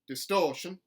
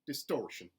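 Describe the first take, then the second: First: The R sound is dropped. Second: The R sound is hard and strong. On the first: "a general Southern dropped R" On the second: "mountain, where the R sounds are retained, but they are hardened"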